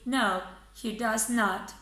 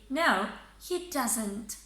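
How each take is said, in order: First: The words does and not are said separately. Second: The words does and not are joined together. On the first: The speaker calls it wrong. "Don't say no, he does not, because that doesn't sound natural" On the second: The speaker calls it right. "Say no, he doesn't"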